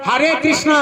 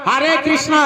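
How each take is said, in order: Both takes have the same delivery.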